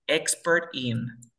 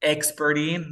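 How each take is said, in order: First: EXPERT IN slow, two words, T sounded; sin linkear. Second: EXPERT IN joined as "experin"; palabras linkeadas. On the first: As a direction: slowly separate EXPERT and IN. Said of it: "dónde puedo aplicar". (EXPERT IN lento, con la T marcada) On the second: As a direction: drop the T and link EXPERT IN. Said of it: "muy bien". (EXPERT IN unido, sin T) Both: Shown as a demonstration.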